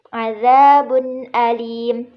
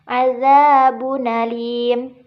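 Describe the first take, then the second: First: The glottal stop before the vowel is kept. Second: The vowel moves onto the preceding consonant. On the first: "pada lafaz azabun alim" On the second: "harokat hamzanya dipindahkan kepada huruf sukun sebelumnya menjadi"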